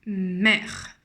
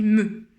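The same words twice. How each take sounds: First: "Mère" with open è and final r; changed vowel sound. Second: "me" with the schwa vowel, like "meu"; louder, sound out "me" as "meu"; syllable read aloud. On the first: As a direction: sound out "Mère" slowly, like la mer. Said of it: "le son du E va changer". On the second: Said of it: "normalement là j'ai écrit me". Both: Shown as a demonstration.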